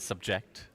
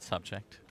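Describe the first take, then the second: First: The stress follows an Indian English pattern. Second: The stress follows the standard English pattern. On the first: The speaker calls it wrong. "in India. They say they say" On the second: The speaker calls it right.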